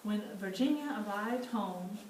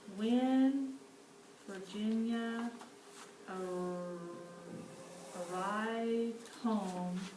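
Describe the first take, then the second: First: It is read smoothly at a natural, flowing pace. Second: It is read slowly, sounding out each word. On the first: The reader understands the sentence. "I went back and I reread it smoothly" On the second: The reader is still working out the words. "I really took my time to kind of sound those words out"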